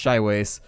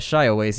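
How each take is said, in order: First: The middle has a 'wa' sound instead. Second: The middle has an 'ee' sound before 'ah'. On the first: The speaker calls it right. "I'm pretty sure it's just Shiwace" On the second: The speaker calls it wrong. "I always pronounce that wrong. I always see like I before A"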